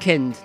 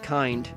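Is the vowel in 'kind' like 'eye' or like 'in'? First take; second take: like in; like eye. First: The vowel is short, like in 'kin'. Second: The vowel is long, like in 'eye'. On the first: The speaker calls it right. "It's pronounced kind" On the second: The speaker calls it wrong. "not kind"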